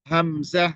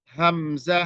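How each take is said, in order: Both takes have the same delivery.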